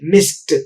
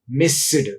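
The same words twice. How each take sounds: First: The word ends with a t sound. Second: The word ends with a d sound. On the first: The speaker calls it right. "pronounced as ta" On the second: The speaker calls it wrong. "not da"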